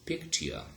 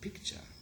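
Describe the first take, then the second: First: The word is said in its older, unassimilated form. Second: The word is said in its modern, assimilated form. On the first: This is how it was said in earlier times. "Initially it was pronounced as picture" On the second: This is how it is said today. "Right now today we pronounce it picture"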